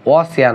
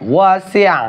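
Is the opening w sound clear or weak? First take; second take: weak; clear. First: The opening w sound is weak and unclear. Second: The opening w sound is clear and distinct. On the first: The speaker calls it wrong. "ওয়াসিআ না" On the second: The speaker calls it right. "ওয়াও শব্দটি স্পষ্ট করে বলবেন"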